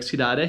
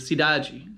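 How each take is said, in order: First: It is said with a European Portuguese accent. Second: It is said with a Brazilian Portuguese accent. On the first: "In Portugal, it should be like cidade, a little bit different" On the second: "but in Brazil, it'd be cidade"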